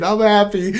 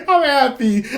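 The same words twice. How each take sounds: First: Said in the usual way. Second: Pitched much higher, giddy with joy; excited. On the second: Real, not acted. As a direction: let the happiness burst out high. Repeats I'm happy twice.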